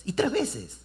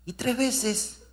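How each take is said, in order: First: Said in the usual way. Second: Tres lifted high and drawn out, the phrase set apart; y tres veces climbing higher on the repeat; stress on tres. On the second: Shown as a demonstration.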